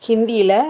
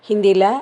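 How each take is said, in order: The two takes are said the same way.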